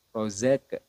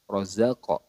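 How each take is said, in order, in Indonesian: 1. Bunyi q dipotong tanpa gema. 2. Bunyi q dipantulkan dengan gema pendek. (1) "kesalahan yang sering terjadi" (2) "dipantulkan ke huruf atau ke makhraj aslinya"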